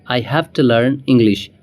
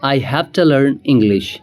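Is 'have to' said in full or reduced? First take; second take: reduced; reduced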